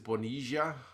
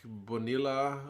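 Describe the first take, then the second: First: It is said in the Buenos Aires way. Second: It is said in a non-Buenos Aires Argentine way. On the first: "in Buenos Aires" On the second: "would be some people's guy"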